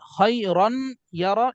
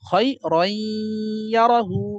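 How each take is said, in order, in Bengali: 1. y-এর আগে n-এর উচ্চারণ স্পষ্টভাবে করা হয়। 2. n-এর উচ্চারণ পরের y-এর সঙ্গে মিশে যায়। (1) "এমন হওয়ার কথা ছিল" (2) "এমন না হয়ে হবে কি?"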